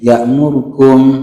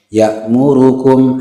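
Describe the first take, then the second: First: A short vowel is dropped as if vowelless. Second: Every short vowel is fully pronounced. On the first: The speaker calls it wrong. "seakan-akan dia sukun" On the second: The speaker calls it right. "aslinya seperti itu"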